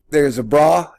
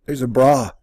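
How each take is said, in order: Both takes have the same delivery.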